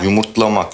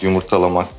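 First: It has no vowel between t and l. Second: It has an extra vowel between t and l. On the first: The speaker calls it right. "Yumurtlamak, yumurtalamak değil" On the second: The speaker calls it wrong. "yumurtalamak değil"

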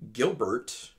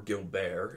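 First: The name is said with English pronunciation. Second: The name is said with French pronunciation.

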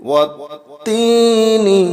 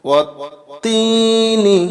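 No difference in how they are said.

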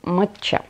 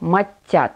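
First: The word is said with a ch sound. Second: The word is said without a ch sound. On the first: This is an accepted colloquial form. "матча – это допустимая разговорная форма" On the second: This is the standard form of the tea's name. "правильно произносится матя, без буквы Ч. Ударение в этом слове падает на второй слог"

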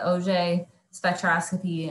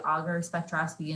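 First: Auger is said with a French pronunciation. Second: Auger is said like the English tool word. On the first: The speaker calls it right. "You say Auger spectroscopy" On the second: The speaker calls it wrong. "you don't say auger spectroscopy and sound completely wrong about it"

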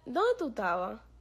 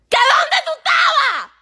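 First: It is said quietly and calmly. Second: It is said loudly, shouting.

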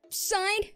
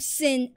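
First: It begins with s and a long i. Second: It begins with s and a short i. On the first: The speaker calls it wrong. "Not Sign" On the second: The speaker calls it right. "I am Sin Asura"

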